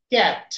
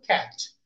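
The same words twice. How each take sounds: First: "ক্যাট" said the everyday Bangla way; incorrect pronunciation. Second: "ক্যাট" said with proper English phonetic sounds; correct pronunciation. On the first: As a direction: demonstrate a learner's mispronounced "ক্যাট", without the proper phonetic sound. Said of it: "উচ্চারণ তো সঠিক হয় নাই". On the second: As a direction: model the correct English "ক্যাট", lower and on a fall. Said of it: "সেখানে আমাদের উচ্চারণটা কেমন হবে?". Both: Shown as a demonstration.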